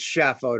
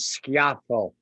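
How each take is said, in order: First: The name is said the Americanized way. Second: The name is said the original Italian way. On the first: This is how most Americans say the name. "Schaffo to most Americans" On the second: This is the official form of the name. "official pronunciation, which nobody uses"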